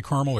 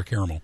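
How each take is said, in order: First: "caramel" said as CAR-mul; two-syllable caramel. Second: "caramel" said as CARE-a-mel; alternative caramel pronunciation. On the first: Host checking how guest says it, "caramel" as CAR-mul. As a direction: drop the middle vowel of "caramel": CAR-mul. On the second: Host offering the other way, "caramel" as CARE-a-mel. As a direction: open "caramel" with CARE, not CAR. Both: Shown as a demonstration. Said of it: "did you say caramel or caramel".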